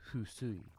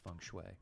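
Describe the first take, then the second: First: The term is pronounced the Japanese way. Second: The term is pronounced the English way. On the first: "In Japanese, it's husui" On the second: "I'm going with feng shui"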